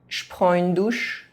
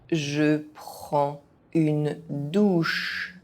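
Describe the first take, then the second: First: It is said fast, with some sounds dropped. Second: It is said at an ordinary speaking pace. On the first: This is how native speakers say it. "fast, as a native speaker would do" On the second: This is the pace learners should use. "at a normal pace"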